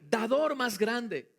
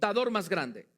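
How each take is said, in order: First: It is said in a joyful, happy tone. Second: It is said in a plain, neutral tone.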